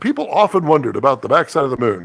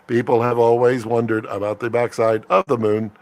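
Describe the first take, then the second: First: It is said in a human put-on voice. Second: It is said in a flat computer-like voice.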